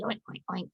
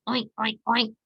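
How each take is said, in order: First: Lower, soft grunting oinks; a calm mama pig's quiet oinking. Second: Light squealing oinks; piglets' playful oinking. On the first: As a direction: grunt gently like a mother pig. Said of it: "the mama pig asked". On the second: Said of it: "the piglets squealed". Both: A narrator's reading.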